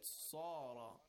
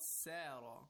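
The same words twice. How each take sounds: First: The s is heavy, with a rounded mouth. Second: The s is light, without a heavy rounded voice. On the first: The speaker calls it right. "it's sad. Second of all, it's tafkhim. We have to recite with a rounded mouth and a heavy voice" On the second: The speaker calls it wrong. "it's not sara, right? ... it's not seen"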